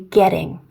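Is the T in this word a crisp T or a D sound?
D sound. The T sounds soft, like a D. "We wouldn't say getting like in American English"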